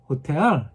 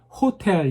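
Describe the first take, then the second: First: The stress is on the second syllable. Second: The stress is on the first syllable. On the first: The speaker calls it right. "미국 사람들이 듣고 아 호텔 이렇게 바로 잡아줍니다" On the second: The speaker calls it wrong. "저한테 배운 대로 하셔도 돼요"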